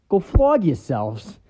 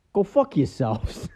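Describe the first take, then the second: First: Slow, louder smug "flog" punchline; deadpan TV-version punchline. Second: Slow, smug punchline with a little smirk; deadpan smirking punchline. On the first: Detective joking in the censored TV version, smug. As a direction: hit "flog" with a sly grin. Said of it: "little smirk". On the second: Detective in a car telling his colleagues a joke, smug and slow. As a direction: let it drop slowly with a sly grin. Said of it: "has a little smirk". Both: Retold or imitated.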